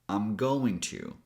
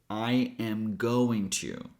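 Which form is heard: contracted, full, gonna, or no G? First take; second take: contracted; full. First: I am is contracted; going to is full. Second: Every word is said in full. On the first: "a little shorter" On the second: "the longest one"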